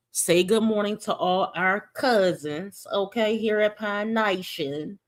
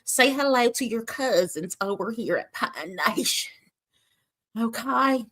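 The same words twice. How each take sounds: First: A hint of a slow Southern drawl; lightly Southern, slowed down; Southern accent. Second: Hammed-up Southern hostess welcome; Southern accent. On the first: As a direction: ease into a light Southern greeting. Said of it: "that's an accent that I might do today". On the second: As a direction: greet the cousins like a Southern cooking host. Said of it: "that sound like Paula Deen".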